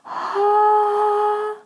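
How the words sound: It starts with a breathy onset.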